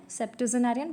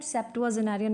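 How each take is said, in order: First: सेप्टेजेनारियन with a short "sep-tuh-ze-narian"; correct pronunciation. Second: सेप्टुआजेनारियन with a full "tu-a" in the middle; learner's spelling pronunciation. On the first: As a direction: reduce the middle of सेप्टेजेनारियन to a quick "tuh". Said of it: "correct pronunciation सेप्टेजेनारियन है". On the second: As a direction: sound सेप्टुआजेनारियन as spelt, "sep-tu-a-ze-narian". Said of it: "मैं आपको बोल रही हूँ learn करने के लिए". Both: Shown as a demonstration.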